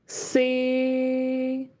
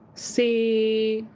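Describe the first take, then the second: First: Tone three, with a flat pitch. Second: Tone six, another distinct pitch. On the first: "Third tone C. Very flat" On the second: "number six"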